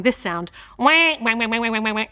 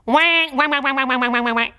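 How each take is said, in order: First: A quacking wah wah like a laughing duck; lightly quacked duck laugh; mock duck laugh. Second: A duck laughing on the pond. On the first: A singing teacher shows a duck laugh to her class. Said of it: "do a kind of a duck laugh". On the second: A singing teacher leads the class in a duck laugh. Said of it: "Can you do it for me". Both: Shown as a demonstration.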